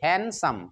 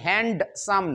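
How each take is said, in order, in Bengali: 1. শব্দটি কোনো d ধ্বনি ছাড়া উচ্চারিত হয়। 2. শব্দটি একটি স্পষ্ট d ধ্বনি দিয়ে উচ্চারিত হয়। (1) "হ্যান হবে" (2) "আমরা এটা ভুল উচ্চারণ করি, হ্যান্ডসাম না, হ্যান্ড হবে না"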